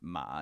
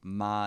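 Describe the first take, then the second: First: The syllable is said on a changing pitch. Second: The syllable is said on a level pitch. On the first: It means horse. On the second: It means mom.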